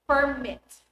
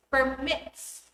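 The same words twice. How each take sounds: First: Permit said as PER-mit, stress on the first syllable; noun stress. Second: Permits said as per-MITS, stress on the second syllable; verb stress. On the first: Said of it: "stress on the first syllable to indicate nouns". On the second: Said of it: "stress on the second syllable to indicate verbs". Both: Shown as a demonstration.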